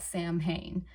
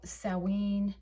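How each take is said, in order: First: The word is read aloud just as spelled. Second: The word is said with its Gaelic pronunciation. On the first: The speaker calls it wrong. "it looks exactly like that" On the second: The speaker calls it right. "it will sound more like"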